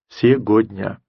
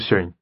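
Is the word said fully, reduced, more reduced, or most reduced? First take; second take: full; most reduced. First: Every syllable of the word is fully pronounced. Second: The word is squeezed down to very few sounds. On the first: "который бы произнес все это слово целиком" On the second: "а может быть, даже"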